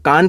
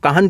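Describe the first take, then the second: First: The h sound is left silent in the name. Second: The h sound is pronounced in the name. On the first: "एच silent कर लेते हैं" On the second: "कुछ लोग इसको काहन कहते हैं"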